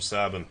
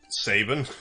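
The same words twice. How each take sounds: First: The name rhymes with cabin. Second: The name does not rhyme with cabin. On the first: The speaker calls it wrong. "I've always called him Sabin" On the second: The speaker calls it right. "I think you're right, and it's Sabin"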